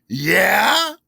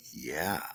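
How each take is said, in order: First: Much louder, high rising query; retold challenging question. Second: Low, soft, almost whispered answer; subdued reply. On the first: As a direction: challenge it loudly, swooping up high. Boss presses him, retold exchange. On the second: Retold or imitated. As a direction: answer small and low, under your breath. His own subdued answer, retold.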